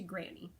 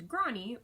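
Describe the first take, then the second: First: Said in the usual way. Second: "Granny" with a broad ah, like "Grawny"; theatrical pronunciation. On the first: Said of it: "we changed it to Granny". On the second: A narrator's reading. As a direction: say "Granny" as a stagey "Grahnny". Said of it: "sounds so theatrical and phony".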